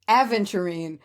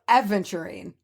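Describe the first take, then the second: Both takes have the same delivery.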